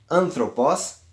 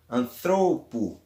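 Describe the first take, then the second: First: Anthropos with the accent on the opening AN; stress on AN. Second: Anthropo drawn out, accent on middle THRO; stress on THRO. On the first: Teacher repeating the example word, anthropos stressed on AN. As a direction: hit the first syllable of anthropos. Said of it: "o acento ele vai cair na antepenúltima". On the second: Teacher repeating the shifted-accent form, anthropo slowly stressed on THRO. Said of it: "thro, na sílaba thro". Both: Shown as a demonstration.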